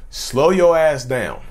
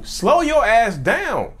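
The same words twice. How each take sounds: First: "Slow your ass down" said slowly, each word spaced. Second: Slow, drawn-out "slow your ass down". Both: Real, not acted.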